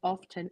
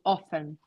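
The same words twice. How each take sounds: First: The word is said in a British pronunciation. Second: The word is said in an American pronunciation. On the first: "British say often" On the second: "Americans say often"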